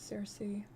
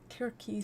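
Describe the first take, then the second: First: The name begins with a soft S sound. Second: The name begins with a hard K sound. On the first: This follows the accepted English usage. "the accepted anglicized pronunciation is Cersei" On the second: This follows the original Greek. "Greek doesn't have soft C sounds. They all sound like K"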